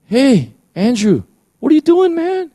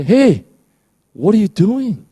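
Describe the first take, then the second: First: A playful voice rising to a squeak; very high teasing call; Holy Spirit calling by name. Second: High, loud, playful call-out; a friendly voice catching you in the act; high teasing "hey, what are you doing?"; Holy Spirit nudging. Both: Pretend. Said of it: "you hear the Holy Spirit say".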